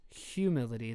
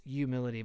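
First: "humility" with a clear H, "hyoo-mility"; sounded H. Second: "humility" begun as "you", no H; silent H. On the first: Host giving the version they trust, H sounded in "humility". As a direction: pronounce the H starting "humility". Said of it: "I'm pretty sure it's". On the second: Host testing the wrong version, H dropped from "humility". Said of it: "I'm pretty sure it's humility". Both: Shown as a demonstration.

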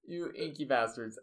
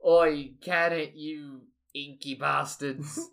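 First: Said in the usual way. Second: Loud call, then slow drawn-out insult; Shark. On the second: Acted. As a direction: open loud, drag out the insult. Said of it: "And Shark is just like".

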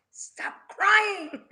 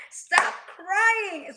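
First: Laughing through a mock rebuke, higher and louder; half-laughing stern command; God's rebuke. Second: Stern mock God voice, higher and louder; God's rebuke. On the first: God telling Moses to stop crying, laughing while saying it. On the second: God scolding Moses, in a stern hammed-up command. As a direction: deliver it as a firm divine order. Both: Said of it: "And God said to Moses".

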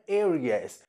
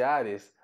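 First: "Aries" said in English, opening like "air"; English pronunciation. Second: Said in the usual way. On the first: Shown as a demonstration. Teacher shows how Aries is said in English, English pronunciation. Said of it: "mas se pronuncia Aries". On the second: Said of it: "Áries em inglês é Aries".

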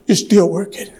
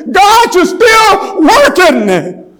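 First: Said in the usual way. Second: High, loud, drawn-out preacher's cry; soaring pulpit climax; crying out in praise. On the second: Real, not acted. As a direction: stretch it out as a shout to God. Sermon climax, cries out to God.

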